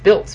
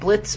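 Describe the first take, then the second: First: The l sound comes after the vowel. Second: The l sound comes before the vowel. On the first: This is the name's actual form. The speaker calls it right. "from what I can tell, it's Biltz" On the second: This is how someone else said the name. The speaker calls it wrong. "George Norrie was pronouncing it Blitz"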